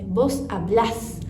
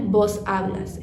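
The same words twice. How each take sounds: First: The stress falls on the last syllable of hablas. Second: The stress falls on the first syllable of hablas. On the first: The speaker calls it right. "é vos hablas" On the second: The speaker calls it wrong. "não é vos hablas"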